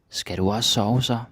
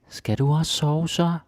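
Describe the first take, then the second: First: It is said in a normal voice. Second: It is said in a high-pitched voice.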